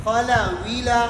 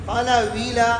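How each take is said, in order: Both takes have the same delivery.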